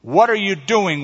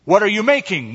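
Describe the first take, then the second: First: Higher, mildly anxious call; nervous cry. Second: High, raised-voice question; louder shout. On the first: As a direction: cry out with a touch of nerves. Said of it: "one cried nervously". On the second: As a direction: call it out loudly, without a full shout. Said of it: "one shouted even louder". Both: A narrator's reading.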